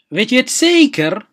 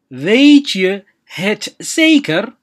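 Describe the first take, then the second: First: Said in the usual way. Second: Slow and drawn out. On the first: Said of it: "teacher models Dutch phrase". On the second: Shown as a demonstration. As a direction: stretch every word out slowly. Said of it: "teacher repeats phrase slowly". (si aad u tartiib ah u dheh)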